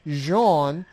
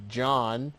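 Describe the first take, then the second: First: The name is said with French sounds. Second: The name is said with English sounds. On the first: "the French pronunciation, which is Jean" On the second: "English pronunciation, which is John"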